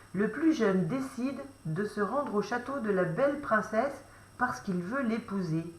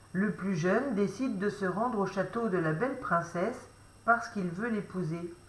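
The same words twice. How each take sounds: No difference in how they are said.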